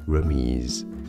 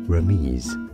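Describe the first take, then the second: First: The word is pronounced the French way. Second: The same.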